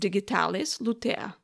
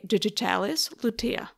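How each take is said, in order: First: It is pronounced with a Slavic accent. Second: It is pronounced with an English accent. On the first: "Since my native language is a Slavic language, I would pronounce this name as" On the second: "speaking in English, I would probably say"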